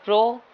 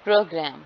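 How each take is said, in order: First: pro alone, punched louder and higher; stressed syllable PRO. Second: programme with the first syllable pro stressed and gram weak; stress on PRO. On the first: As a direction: hit the syllable pro hard on its own. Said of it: "pro के ऊपर ज़्यादा stress है". (Pro को ज़ोर देकर, ऊँचा और तेज़) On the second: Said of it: "के ऊपर ज़्यादा स्ट्रेस है". (प्रोग्राम में प्रो पर ज़ोर) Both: Shown as a demonstration.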